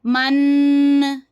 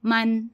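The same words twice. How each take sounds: First: मन dragged out slowly, the wrong way; teacher demonstrates the mistake to avoid; wrongly stretched. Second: Said in the usual way. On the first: Shown as a demonstration. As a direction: draw out मन too long on purpose. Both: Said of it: "इसको लंबा नहीं करना".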